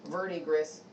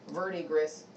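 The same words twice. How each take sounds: First: It is pronounced with English-style sounds. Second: It is pronounced with English-style sounds.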